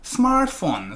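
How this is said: The pitch falls slightly at the end. "smartphone 살짝 내려오는데"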